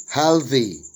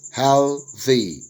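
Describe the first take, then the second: First: Said in the usual way. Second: "healthy" split as hel, thee; syllable by syllable. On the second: Shown as a demonstration. Teacher dividing worksheet words, "healthy" broken into syllables. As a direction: say "healthy" in two separated syllables. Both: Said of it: "syllable division of the words".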